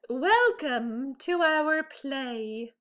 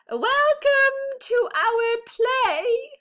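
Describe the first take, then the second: First: It is said at normal, softer volume. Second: It is said in a louder voice.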